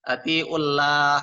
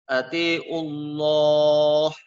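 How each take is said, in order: First: The l in Allah sounds thin and light. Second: The l in Allah sounds thick and heavy. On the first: The speaker calls it wrong. "Jangan dibaca tipis" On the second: The speaker calls it right. "harus dibaca tebal"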